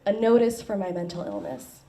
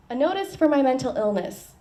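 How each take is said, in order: First: Said in the usual way. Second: Lifted, deliberate reading of "A notice for my mental illness"; poem title in a performance voice. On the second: Acted. Poet starting her poem by announcing "A notice for my mental illness". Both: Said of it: "I have a poem called".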